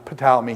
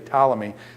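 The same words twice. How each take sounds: First: The initial P is pronounced. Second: The initial P is silent. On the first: "he pronounces the P" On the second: "the P goes silent, so I'd say Ptolemy"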